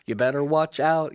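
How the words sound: It sounds light and cheerful, like a song. It is a friendly holiday reminder. "instead of being like, you better watch out, you know, like the song"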